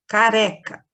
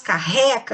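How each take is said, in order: First: "careca" with a single light tongue-tap R; soft R. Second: "carreca" with a breathy h-like double R; strong R. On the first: Teacher demonstrating R brando to pupils, "careca" with soft R. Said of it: "a gente chama de R brando". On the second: Teacher showing what two R's would sound like, "carreca" with strong R. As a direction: put a strong throat R in the middle of "carreca". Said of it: "ia ter que ter dois R's pra fazer forte". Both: Shown as a demonstration.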